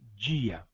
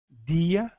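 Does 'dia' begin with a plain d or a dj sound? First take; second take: dj; plain d. First: It begins with a dj sound. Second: It begins with a plain d sound. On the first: "unidades como D e Z" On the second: "unidades como D e Z"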